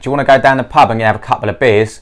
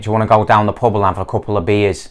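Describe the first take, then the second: First: It is spoken in a London accent. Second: It is spoken in a Manchester accent. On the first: "O segundo sotaque é de Londres" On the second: "O terceiro sotaque é de Manchester"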